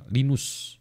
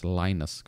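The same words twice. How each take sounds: First: Linus said LEE-noos, higher; his reading. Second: Linus said LIE-nus; American reading. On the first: Lecturer recalls his own reading of Linus, LEE-noos. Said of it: "kalau saya baca namanya Linus". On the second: Lecturer gives the American way to say Linus, LIE-nus. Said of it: "orang Amerika bilangnya Linus". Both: Shown as a demonstration.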